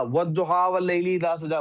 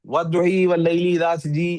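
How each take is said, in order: First: वद्दुहा वल्लैली इज़ा सजा recited with open a endings, duha and saja; standard Arabic recitation. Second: वद्दुही वल्लैली इज़ा सजी with the a endings bent to ee, duhee and sajee; Egyptian-style recitation. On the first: Teacher reciting the standard reading to the class, open a sounds. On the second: Teacher showing students the Egyptian reading, endings shifted to ee. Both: Shown as a demonstration. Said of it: "ऐसे करके वो पढ़ते हैं".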